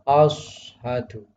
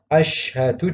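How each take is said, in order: First: The first consonant is a heavy emphatic s. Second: The first consonant is a sh sound. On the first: The speaker calls it wrong. "Shin menjadi shad tidak boleh" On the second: The speaker calls it right. "yang seharusnya"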